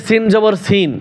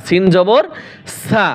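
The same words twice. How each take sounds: First: সিন repeated whole in place of সা; wrong spelling-out. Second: Rising জবর, pause, then short সা; correct spelling-out. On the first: Teacher quoting how many misread it, ending on whole সিন. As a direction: end on the full letter name সিন. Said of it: "অনেকে পড়ে". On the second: Teacher correcting a common misreading, short সা after a pause. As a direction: close on the short open syllable সা. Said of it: "সিন জবর সিন না". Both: Shown as a demonstration.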